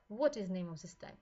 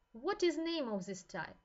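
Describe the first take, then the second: First: Said in the usual way. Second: Raised, louder quizzing question to the class; emphatic question. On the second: Shown as a demonstration. Lecturer quizzing students on the allergy type, raised and emphatic. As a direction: put the question to the students with force.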